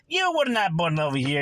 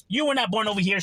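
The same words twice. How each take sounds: First: Put-on half-hearted go at an Italian accent; attempted Italian accent. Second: Said in the usual way. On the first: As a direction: imitate an Italian immigrant's accent, badly. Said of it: "I can't do the accent". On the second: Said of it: "But I'm saying, you know".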